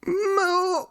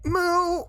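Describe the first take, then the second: First: High, strained near-shouted moo. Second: High, small whimpering moo for a redeem; whimpered moo. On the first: Streamer redoes the cow redeem for chat, near-shouted moo. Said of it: "I don't know how to do it without shouting". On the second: Streamer doing a cow redeem for chat, whimpering moo. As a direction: squeak out a shy little moo. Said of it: "that was a whimper". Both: Pretend.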